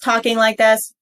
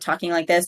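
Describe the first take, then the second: First: It is said at a louder volume. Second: It is said at a quieter volume. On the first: "louder means going louder in volume" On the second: "instead of talking like this"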